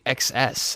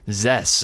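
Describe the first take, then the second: First: The name is said as two separate letters. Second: The name is said as one single syllable. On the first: The speaker calls it right. "It's actually X S" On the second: The speaker calls it wrong. "I always thought it was Zess"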